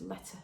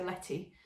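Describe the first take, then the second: First: Letter ending in a soft "uh"; presumed correct pronunciation. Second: Letty ending in an "ee" sound; anglicised pronunciation. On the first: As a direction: say letter as "LET-uh", no "ee" and no r. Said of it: "but I think it's letter". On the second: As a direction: say Letty the English way, with a final "ee". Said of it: "My sort of English, um, accent wants to say Letty". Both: Shown as a demonstration.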